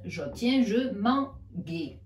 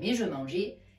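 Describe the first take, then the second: First: The g is said as a hard g sound. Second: The g is said as a soft zh sound. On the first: The speaker calls it wrong. "j'obtiens je manguais. On est d'accord que l'on ne veut pas dire je manguais" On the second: The speaker calls it right.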